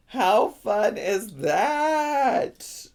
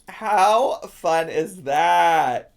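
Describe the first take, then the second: First: Very slow, high singsong gush. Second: Slow, drawn-out delight; excited. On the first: Streamer gushing over the belt bag, high singsong. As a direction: stretch the last word way out, up high. Repeats it higher, more drawn out. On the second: Streamer showing off the belt bag, excited. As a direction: stretch each word to show it off. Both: Real, not acted.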